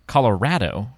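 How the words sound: The name is said the way locals say it. "or as the locals said"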